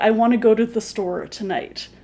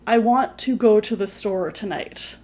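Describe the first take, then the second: First: Want to is blended together into wanna. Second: Want to is said as two full words. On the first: The speaker calls it right. "you'd probably say" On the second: The speaker calls it wrong. "nobody would really say"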